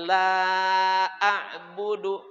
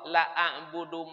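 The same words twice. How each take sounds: First: The vowel in the first word is long. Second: The vowel in the first word is short. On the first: I do not worship what you worship. The speaker calls it right. "Tapi kalau lam dibaca panjang" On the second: Truly I worship what you worship. The speaker calls it wrong. "Itu kalau lam dibaca pendek"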